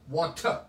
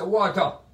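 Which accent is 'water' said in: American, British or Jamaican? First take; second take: British; Jamaican. First: It is said in a British accent. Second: It is said in a Jamaican accent. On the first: "The British people say water" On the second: "Jamaicans say"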